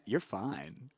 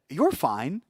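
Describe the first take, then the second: First: It sounds flirtatious, meaning you're attractive. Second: It sounds plainly reassuring, meaning it's okay.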